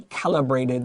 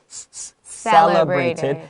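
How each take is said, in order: First: The word begins with a K sound. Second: The word begins with an S sound. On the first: The speaker calls it wrong. "don't say calibrated" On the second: The speaker calls it right. "the C is an S"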